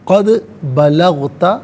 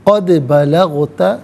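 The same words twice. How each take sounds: No difference in how they are said.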